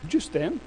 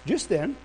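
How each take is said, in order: Both takes have the same delivery.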